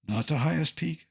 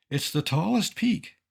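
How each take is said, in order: First: Highest picked out as the wrong word; stress on highest. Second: Tallest leaned on, set against highest; stress on tallest. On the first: To the audience, rejecting the word highest, stressing highest. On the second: To the audience, weighing tallest against highest, stressing tallest. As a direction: hit the word tallest. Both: Shown as a demonstration.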